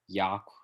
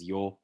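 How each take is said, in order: First: The vowel is an open unrounded ah. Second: The vowel is a rounded ah sound.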